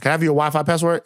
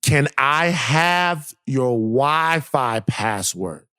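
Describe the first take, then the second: First: Rattled off fast; quick mock repeat. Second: Each word stretched out slowly; slow drawn-out quote. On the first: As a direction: fire off the neighbor's ask quickly. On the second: Retold or imitated. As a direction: drag out the neighbor's ask word by word. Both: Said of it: "is what she asked".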